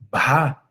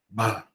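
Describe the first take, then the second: First: Breathiness follows the consonant, then the vowel turns clear. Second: The whole vowel is breathy and murmured throughout.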